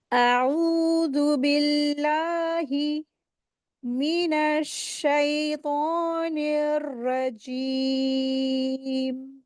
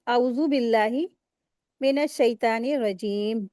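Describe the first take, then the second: First: Slow, drawn-out recitation of आऊज़ु बिल्लाहि मिनश्शैतानिर रजीम; correct tajweed recitation. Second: Rushed, common wrong reading of आऊज़ु बिल्लाहि; wrong way demo. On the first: Tajweed teacher recites the full correct ta'awwuz for students, slow and melodic. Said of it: "तो कैसे पढ़ेंगे?". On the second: Tajweed teacher shows students the common wrong recitation, offhand. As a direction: say आऊज़ु बिल्लाहि मिनश शैतानिर रजीम quickly, without proper elongation. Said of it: "तो ये गलत तरीका है". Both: Shown as a demonstration.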